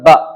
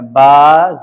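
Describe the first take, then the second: First: The vowel is said short and quick. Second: The vowel is drawn out long. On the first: This is the letter read with a short vowel mark. "जबर बोलने के बाद जल्दी से बोलेंगे" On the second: This is the name of the letter. "बा को देखें मैंने खींच के पढ़ा"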